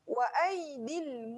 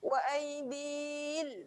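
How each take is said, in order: First: The vowel runs straight into the l sound. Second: The vowel before the l is drawn out. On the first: The speaker calls it right. "terus masukkan bunyi lam" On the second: The speaker calls it wrong. "jangan lama, jangan bunyi wa aidil. Ah, yang tu salah"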